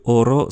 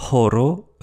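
First: "oro" starting straight on the vowel; "oro" with a clean vowel onset. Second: "horo" with an audible breathed h; "horo" starting as in English h; aspirated H. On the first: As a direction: say "oro" without any breathed h. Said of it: "sa prononciation n'est pas facultative". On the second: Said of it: "Le H est expiré". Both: Shown as a demonstration.

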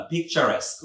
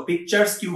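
First: "পিকচারেস্ক" as one word ending "-esk"; correct pronunciation. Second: "পিকচার্স কিউ" split into pictures plus "kyu"; wrong pronunciation. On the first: Teacher correcting the mistake, "পিকচারেস্ক" with "-esk" in place of "kyu". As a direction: say "পিকচারেস্ক" as pik-cha-resk. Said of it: "উচ্চারণটা হচ্ছে পিকচারেস্ক". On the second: Teacher warning learners off the mistake, mispronounced "পিকচার্স কিউ" ending "kyu". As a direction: say "পিকচার্স কিউ" with the letter Q sounded at the end. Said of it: "বলবেন না". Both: Shown as a demonstration.

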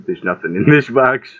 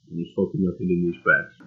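First: Said in the usual way. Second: Low, soft deadpan grumble; quiet disbelief. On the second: Real, not acted. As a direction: mutter it in disbelief.

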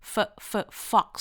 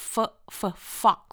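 The two takes are said the same way.

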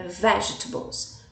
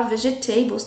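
First: "vegetables" said in three syllables, VEJ-ta-bles; "vegetables" short, the middle e swallowed; correct pronunciation. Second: "vegetables" in four syllables, ve-zhe-TAY-bles; "vegetables" over-pronounced, every syllable said; wrong pronunciation. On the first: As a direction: clip "vegetables" to three beats. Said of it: "É vegetables". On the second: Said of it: "não podemos falar vegetables". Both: Shown as a demonstration.

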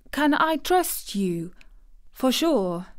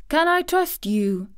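First: Slow, higher-pitched plea; imploring. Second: High-pitched, urgent plea; imploring. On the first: Girl asks the boy to promise secrecy, slowly imploring. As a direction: implore slowly, wanting to be certain. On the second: Girl about to share a secret with the boy, imploring. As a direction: plead for his promise. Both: A narrator's reading. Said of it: "she implored".

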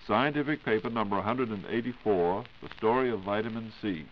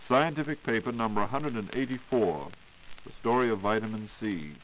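Both takes have the same delivery.

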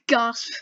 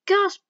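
First: "Gasp" said again through a laugh; laughing repeat. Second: High, loud, dramatic spoken "Gasp!". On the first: Real, not acted. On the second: Acted. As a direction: act out "Gasp!" as a sharp surprised cry. Reading out a gasp line.

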